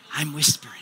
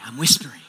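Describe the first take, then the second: First: Breathy unvoiced whisper into the mic; playful pastor whispering to get attention. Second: Said in the usual way. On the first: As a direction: whisper it so they lean in.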